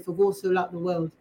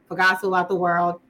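First: It is said in an English accent. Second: It is said in an American accent.

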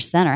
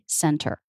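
First: The T sound is dropped entirely. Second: The T sound is clearly pronounced. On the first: "But you'll also really often hear center" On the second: "You can make a true T center"

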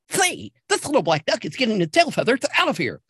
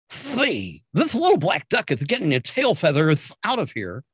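First: The voice is sped up and higher in pitch. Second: The voice is at normal speed and pitch.

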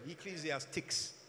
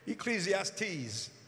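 First: The word ends with a 'tics' sound. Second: The word ends with a 'teez' sound. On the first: The speaker calls it wrong. "When I was a child, I used to pronounce it Ecclesiastics" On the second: The speaker calls it right. "But Ecclesiastes"

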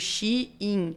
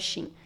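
First: It is said slowly as two parts, 'she in'. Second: It is said quickly, the two parts run together. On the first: "é tipo Shein. Ela dentro" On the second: "se você falar rápido, vira Shein"

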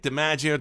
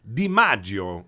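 First: The name is said with an American pronunciation. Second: The name is said with an Italian pronunciation. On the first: "I say it DiMaggio" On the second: "if you say it in Italian, it's DiMaggio"

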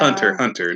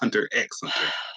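First: The middle X is left out entirely. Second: The middle X is spoken aloud. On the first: The speaker calls it right. "The X is silent" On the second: The speaker calls it wrong. "not Hunter X Hunter"

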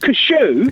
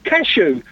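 First: The word is said in a posh, pompous way. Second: The word is said in a plain, ordinary way. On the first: The speaker calls it wrong. "not cashew" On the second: The speaker calls it right. "They're called cashew"

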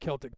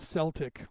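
First: The word begins with a hard K sound. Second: The word begins with a soft S sound. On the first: The speaker calls it right. "we call them the Celts or the Celtic people" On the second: The speaker calls it wrong. "like they have in the Boston Celtics, you know, I'm sorry, but you're saying it wrong"

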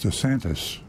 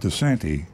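First: The name ends with an s sound. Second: The name ends without an s sound. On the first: The speaker calls it right. "with an S at the end" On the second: The speaker calls it wrong. "not DeSanti"

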